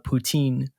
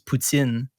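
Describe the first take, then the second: First: It is pronounced the English way. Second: It is pronounced the Quebec French way.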